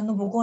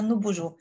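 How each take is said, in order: First: The g is pronounced hard, like in go. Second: The g is pronounced soft, like zh. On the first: The speaker calls it wrong. "لا انا مش عايزاها نو بوجو" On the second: The speaker calls it right. "انا عايزاها نو بوجو"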